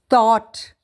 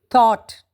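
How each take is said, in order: No difference in how they are said.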